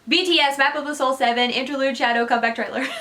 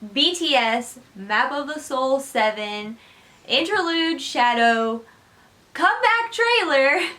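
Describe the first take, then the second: First: It is said very quickly, words rushed together. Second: It is said at a normal, unhurried pace.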